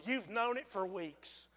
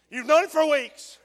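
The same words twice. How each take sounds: First: Softly and slowly; quiet, slow and intimate. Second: Louder and higher; pressing it louder. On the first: Preacher quietly confronts a hesitant sinner. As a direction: say it close to one listener. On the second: Preacher repeats it louder to press the sinner. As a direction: push the point home. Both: Real, not acted.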